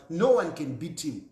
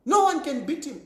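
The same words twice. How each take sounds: First: Said in the usual way. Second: No said high and loud, a firm insistence; stress on No. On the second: Real, not acted. To the audience, insisting nobody can beat Lungu, stress on No. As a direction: lean hard on No, higher and louder.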